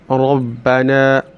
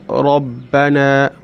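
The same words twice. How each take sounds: No difference in how they are said.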